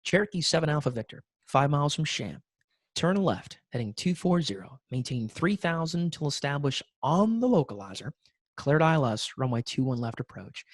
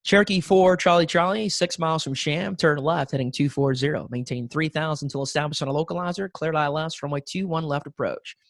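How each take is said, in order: First: Softer, slower patient clearance; slow it down to calm the student pilot; slower, calmer. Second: Said in the usual way. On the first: Shown as a demonstration. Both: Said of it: "talk a little bit slower".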